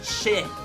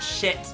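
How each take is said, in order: First: It ends without any T sound. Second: It ends with a clear T sound. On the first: The speaker calls it right. "actually the T is silent. It's pronounced" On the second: The speaker calls it wrong.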